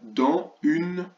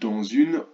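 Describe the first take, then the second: First: The two words are said separately, with no liaison. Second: The final s links to the next word as z. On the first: "Je n'ai pas fait la liaison pour que vous entendiez bien tous les mots" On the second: "Et si je fais la liaison"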